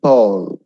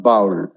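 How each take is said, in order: First: "Bowl" rhyming with hole; correct bowl. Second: "bowl" as rhyming with howl, the wrong way. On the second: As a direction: show the error: "bowl" like howl. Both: Shown as a demonstration. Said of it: "not bowl".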